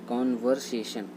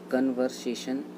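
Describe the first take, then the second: First: The first vowel is an open 'o' sound. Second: The first vowel is a short 'uh' sound. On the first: The speaker calls it right. "इसका right होता है कॉन्वर्सेशन" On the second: The speaker calls it wrong. "कन्वर्सेशन गलत होता है"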